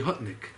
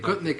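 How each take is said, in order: First: The name begins with an H sound. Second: The name begins with a hard G sound. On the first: This is the original form of the name. "Gutnik is really Hutnik" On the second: This is the Russianized form of the name. "They didn't know how to say it, so they Gutnik"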